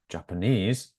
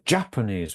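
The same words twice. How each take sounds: First: The stress is on the third syllable. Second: The stress is on the first syllable. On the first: "normally it's on the third syllable" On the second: "stress the first part of the word"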